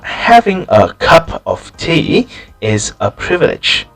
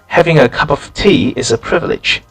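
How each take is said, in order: First: The words are said slowly and separately. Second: The words run together smoothly and quickly. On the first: The speaker calls it wrong. "unnaturally, this sentence would sound like this ... it's kind of slow" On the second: The speaker calls it right. "in natural English, it sounds like this"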